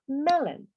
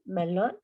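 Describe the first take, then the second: First: "melon" stressed first, ending in "en"; English pronunciation. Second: "melón" with a full "on", stressed at the end; Spanish-style reading. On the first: Teacher correcting the O N ending, "melon" as MEL-en. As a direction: say "melon" as MEL-en, falling at the end. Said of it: "Se pronuncia". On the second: Teacher showing how the spelling looks, "melón" with stressed "-lón". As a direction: read "melón" as in Spanish, questioning rise on "lón". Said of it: "Puedes ver así". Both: Shown as a demonstration.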